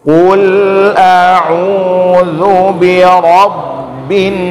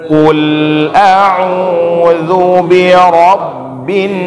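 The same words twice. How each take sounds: The two takes are said the same way.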